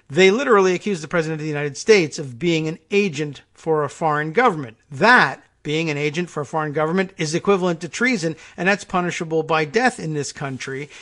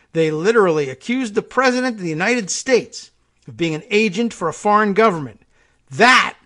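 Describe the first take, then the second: First: Level reading that leans on "literally"; emphasized differently. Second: Rising, louder stress on "president" and "government"; first reading, stressed. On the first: Host rereading the quote the generous way, evenly stressed. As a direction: read "They literally accused the president" evenly, weight on "literally", calmer than the outraged take. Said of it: "oh, well, if emphasized differently".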